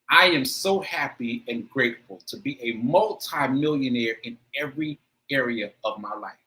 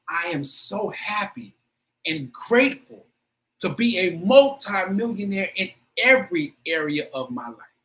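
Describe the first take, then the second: First: It is said plainly, without strong feeling. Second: It is said with strong, intense emotion.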